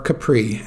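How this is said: It is said with an English accent.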